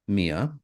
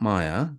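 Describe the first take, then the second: First: The name begins with a 'mee' sound. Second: The name begins with a 'my' sound. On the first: The speaker calls it right. "Mia, not Maya" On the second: The speaker calls it wrong. "not Maya"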